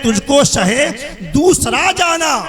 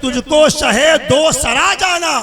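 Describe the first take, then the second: First: The key word runs together as one word. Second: The key word is split into two words. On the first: The speaker calls it wrong. "शोरा हजरात होते हैं वो यहाँ पे ये पढ़ देते हैं" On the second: The speaker calls it right. "यहाँ पे दूसरा नहीं है, बल्कि"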